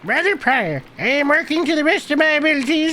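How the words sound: It is read in a put-on old man's voice. "I think I was I was old man voice"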